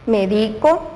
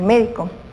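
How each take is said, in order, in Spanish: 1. El acento está en la sílaba del medio. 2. El acento está en la primera sílaba. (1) "la fuerza la hacemos en la sílaba del centro" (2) "cuando lleva la tilde acá y es una palabra esdrújula"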